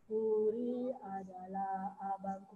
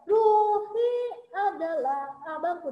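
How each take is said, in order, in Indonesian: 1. Frasa itu diucapkan lembut dan biasa saja. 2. Frasa itu diucapkan keras dan ditekan kuat. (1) "kan biasa aja" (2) "ditekan lebih kuat"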